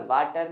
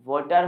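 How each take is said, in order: First: "वाटर" as vaa-tar, open aa; wrong pronunciation. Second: "वाटर" as vo-tar; corrected pronunciation. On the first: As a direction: keep an aa in "वाटर". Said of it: "वाटर नहीं". ("वाटर" में खुला 'आ') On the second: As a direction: use an o sound in "वाटर". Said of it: "वाटर होता है दोस्तों". ("वाटर" को 'वॉटर' बोलें) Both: Shown as a demonstration.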